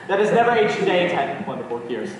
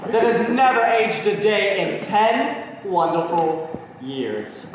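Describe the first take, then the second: First: Fast, run-together recital; rattled-off toast. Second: Lingering toast. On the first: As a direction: rush through the repeated toast. Toast echoed back in a hurry. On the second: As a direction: savour each word of the toast. Husband's lingering, ardent toast. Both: Acted.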